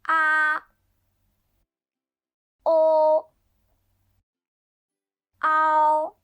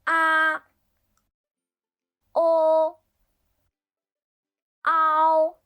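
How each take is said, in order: No difference in how they are said.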